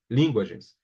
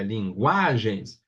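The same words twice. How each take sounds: First: "linguagens" wrongly stressed on the first syllable "lin"; tônica errada em LIN. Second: "linguagens" with a long, drawn-out "gua"; tônica em GUA. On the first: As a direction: say "linguagens" as LIN-guagens, quickly dropping after it. ("linguagens" com força errada no "lin") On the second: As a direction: slowly stretch the middle syllable of "linguagens". ("linguagens" bem devagar, com força no "gua") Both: Shown as a demonstration. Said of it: "não é o lin".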